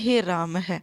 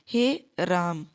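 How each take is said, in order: First: The word ends with an added breathy h. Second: The word ends plainly, with no breathy h. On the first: The speaker calls it wrong. "आपको कभी भी ये नहीं बोलना है ... गलत है।" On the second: The speaker calls it right. "सही है हमारा राम ही। ... Simple राम, जिसमें विसर्ग नहीं लगी हुई है।"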